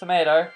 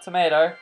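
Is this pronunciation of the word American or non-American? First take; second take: American; American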